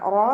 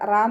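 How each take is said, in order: First: The vowel is heavy and rounded, like ro. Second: The vowel is light and open, like raa. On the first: The speaker calls it right. "റോ എന്നുള്ള സൗണ്ട് തന്നെ കൊടുക്കുക" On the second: The speaker calls it wrong. "റാ എന്നായി പോവരുത്"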